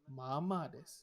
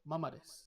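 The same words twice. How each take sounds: First: The first vowel of mama is drawn out long. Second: The first vowel of mama is kept short. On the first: The speaker calls it right. "anyone you listen to, it pronounced" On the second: The speaker calls it wrong. "It's not"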